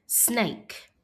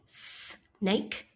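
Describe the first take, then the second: First: Said in the usual way. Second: "snake" split into "sss", pause, "nake"; sounded out. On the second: Shown as a demonstration. Teacher inviting pupils to help, snake split as s, nake. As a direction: hold the S of "snake" apart. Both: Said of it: "Help me say".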